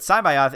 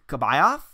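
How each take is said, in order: First: The name begins with an S sound. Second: The name begins with a K sound. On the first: This is how it is actually said. The speaker calls it right. "you have to actually hear it" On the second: This is how the spelling would be read. The speaker calls it wrong. "if I saw the C apostrophe B, I- I'd be like, a K- K-"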